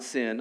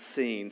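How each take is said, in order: First: The vowel is a short 'i' sound. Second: The vowel is a long 'ee' sound. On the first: The speaker calls it wrong. "Not sin" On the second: The speaker calls it right. "it's pronounced seen"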